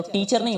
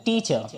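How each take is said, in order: First: टीचर with a plain hard Hindi t; wrong pronunciation. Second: टीचर with teeth meeting on an airy English t; correct t sound. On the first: Teacher showing the mistake in teacher, wrong pronunciation. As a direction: say टीचर with an unaspirated t. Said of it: "तो टीचर नहीं होता है". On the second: Teacher modelling the English word, correct t sound. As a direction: release air on the t of टीचर. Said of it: "टी बोलते समय आपके दांत टकराएंगे". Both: Shown as a demonstration.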